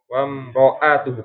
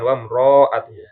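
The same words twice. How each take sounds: First: The vowel after r is short. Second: The vowel after r is drawn out. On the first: The speaker calls it right. "Ro-nya tidak panjang" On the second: The speaker calls it wrong.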